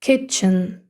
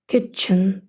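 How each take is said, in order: Both takes have the same delivery.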